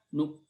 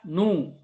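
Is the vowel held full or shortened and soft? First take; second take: shortened; full. First: The vowel is cut short and said quietly. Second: The vowel is held full and clearly voiced. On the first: "Kalau dua per tiga harokat dibaca nu. ... lebih cepat dan lebih kecil suaranya" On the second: "Kalau kalau harokatnya full dibaca nu"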